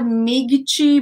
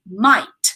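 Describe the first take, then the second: First: A g sound is pronounced in the word. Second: No g sound is pronounced in the word. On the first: The speaker calls it wrong. "not migichi" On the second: The speaker calls it right. "There's no G in the pronunciation. It's might"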